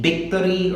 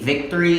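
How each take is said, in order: First: The word begins with a B sound. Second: The word begins with a V sound. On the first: The speaker calls it wrong. "they make their B's and their V's backwards" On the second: The speaker calls it right. "Instead of saying"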